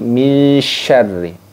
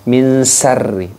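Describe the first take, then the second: First: The second word begins with a spread sh sound. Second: The second word begins with a plain s sound. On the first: The speaker calls it right. "tapi menggunakan shin" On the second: The speaker calls it wrong. "bukan menggunakan sin"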